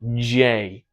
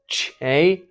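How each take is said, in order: First: The opening consonant is voiced, with vocal buzz. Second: The opening consonant is voiceless, without vocal buzz. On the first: The speaker calls it right. "you want J. With your vocal folds phonating" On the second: The speaker calls it wrong. "You don't want Che"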